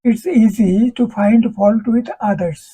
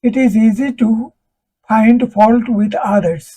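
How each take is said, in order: First: The words 'it is' are contracted to 'it's'. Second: The words 'it is' are said in full. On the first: The speaker calls it right. "it is থাকলে it's" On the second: The speaker calls it wrong. "it is এভাবে বলে না।"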